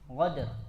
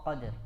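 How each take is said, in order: First: It begins with a gargled gh sound. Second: It begins with a deep back q sound. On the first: The speaker calls it wrong. "merubah eh, qaf menjadi ghain" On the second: The speaker calls it right. "tetap dia di makhrajnya tidak berubah"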